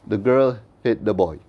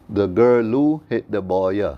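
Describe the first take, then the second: First: The words end without any added vowel sound. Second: The words end with added vowel sounds. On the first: "English is a language that is spoken with the words ending with sukoon" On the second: "in Arabic, we don't speak with sukoon at the end of words. We speak with vowel sounds"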